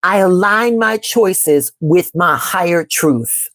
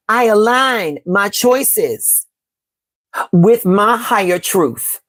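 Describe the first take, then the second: First: Slow, calm affirmation; measured mantra, unhurried. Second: Very slow, drawn-out affirmation; slow mantra in two breaths; slower affirmation. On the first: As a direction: lay each word down slowly and steadily. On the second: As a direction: stretch every word like a prayer. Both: Shown as a demonstration. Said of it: "we're going to affirm".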